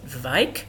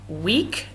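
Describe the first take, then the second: First: The name begins with a V sound. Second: The name begins with a W sound.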